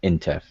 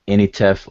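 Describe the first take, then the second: First: The name has no vowel after the n. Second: The name has an extra vowel after the n. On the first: "Egyptologically they would pronounce it uh in Tef" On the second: "I N I N T F"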